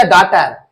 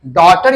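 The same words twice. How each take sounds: First: First vowel of "डॉटर" opened to "ah"; mispronounced vowel. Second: First vowel of "डॉटर" as a rounded open "aw"; correct pronunciation. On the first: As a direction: say "डॉटर" wrongly as DAH-tar, slowly. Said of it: "डॉटर नहीं रे बाबा". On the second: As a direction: say "डॉटर" as DAW-ter, slowly. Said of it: "डॉटर नहीं रे बाबा, डॉटर". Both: Shown as a demonstration.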